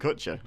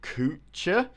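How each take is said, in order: First: The name is said plainly, in an ordinary way. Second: The name is said oddly, as if puzzling over it. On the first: The name is familiar and straightforward. The speaker calls it right. "it's just Ashton Kutcher" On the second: The name seems foreign and unfamiliar. The speaker calls it wrong. "sort of squints at it and is like Kutcher. He, he sort of said it like that"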